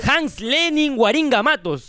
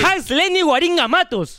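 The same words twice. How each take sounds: First: Slow, drawn-out name announcement; slow repeat. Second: High-pitched donor announcement; name announcement. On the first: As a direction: repeat the name slowly for them. Repeats after "¿Cómo, cómo, cómo?. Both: Pretend.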